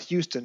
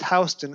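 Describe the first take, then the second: First: The first syllable sounds like 'hue'. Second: The first syllable sounds like 'house'. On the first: This is how the spelling makes it look. The speaker calls it wrong. "and not Houston" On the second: This is how the street's name is really said. The speaker calls it right. "that's why it's pronounced Houston"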